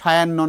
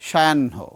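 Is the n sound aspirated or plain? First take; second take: plain; aspirated. First: The n sound is plain, without breathiness. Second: The n sound is breathy and aspirated. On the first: The speaker calls it wrong. "সায়াহ্ন নয়" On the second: The speaker calls it right. "নয়ের সাউন্ডটা মহাপ্রাণ হবে"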